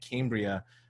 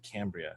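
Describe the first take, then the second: First: The first syllable does not sound like 'cam'. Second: The first syllable sounds like 'cam'. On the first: The speaker calls it wrong. "I was pronouncing it Cambria" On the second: The speaker calls it right. "but it's actually Cambria"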